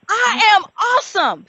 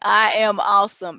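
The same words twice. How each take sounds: First: It is said with real conviction and feeling. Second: It is said flatly, without conviction.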